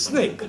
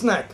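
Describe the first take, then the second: First: The vowel sounds like the one in 'make'. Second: The vowel sounds like the one in 'cat'. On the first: The speaker calls it right. "We in Bombay know how to pronounce it. It's snake" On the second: The speaker calls it wrong. "Here you mispronounce it as snack"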